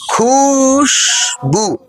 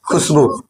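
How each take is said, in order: First: Khushboo with a very long, sustained खू; slow Khushboo, first vowel held long; drawn-out first syllable. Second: Said in the usual way. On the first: Shown as a demonstration. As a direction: stretch खुश right out, then say बू at once. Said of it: "लंबा खींचना है।". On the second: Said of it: "क्या बोलेंगे?".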